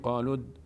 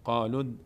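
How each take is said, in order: The two takes are said the same way.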